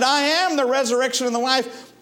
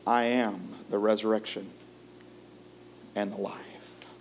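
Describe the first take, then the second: First: Emphatic proclamation. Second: Soft reverent quote. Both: Acted. Preacher repeats Jesus' words.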